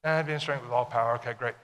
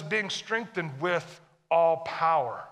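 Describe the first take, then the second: First: Casual read-through, dropping away on "okay, great"; glossed-over reading. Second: Slow, weighty verse reading with ALL POWER drawn out; deliberate emphatic reading. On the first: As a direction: run "And being strengthened with all power" together, offhand and lower. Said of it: "we read down through these verses". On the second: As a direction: land slowly and firmly on "all power". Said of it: "a lot of times we read down through these verses". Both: Shown as a demonstration.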